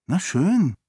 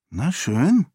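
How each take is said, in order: First: "schön" high, then falling; higher-pitched "Na schön" that comes down at the end; grudging acceptance. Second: "schön" lifted in a rising tune; airy, pretend-indifferent "Na schön"; feigned disinterest. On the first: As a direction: concede with a falling tune on "schön". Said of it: "wiederholte Sarene und stellte sich desinteressiert". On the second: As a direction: act as if you don't care, pitch rising at the end. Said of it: "stellte sich desinteressiert". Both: A narrator's reading.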